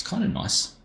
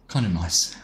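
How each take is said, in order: First: "kinda nice" lifted up high in a light whisper; high whispered sing-song on "kinda nice"; high playful kinda nice. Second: Said in the usual way. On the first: Real, not acted. Repeats the phrase differently.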